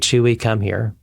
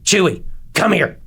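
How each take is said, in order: First: It is said flatly, without feeling. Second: It is said sternly, like a scolding.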